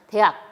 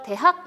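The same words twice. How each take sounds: First: Said fast, the h sound disappears. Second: The h sound is clearly pronounced. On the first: "이렇게 빨리 발음하다 보면" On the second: "당연히 발음하는 것이 원칙이지만"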